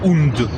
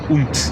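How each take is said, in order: First: The word ends with a voiced D sound. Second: The word ends with a T sound. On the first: The speaker calls it wrong. "Io non dico und" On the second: The speaker calls it right. "dico unt"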